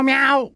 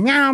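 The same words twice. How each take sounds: First: Imitated cat meow. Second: Said in the usual way. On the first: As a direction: mimic a small cat calling meow. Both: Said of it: "I hear a fucking meow".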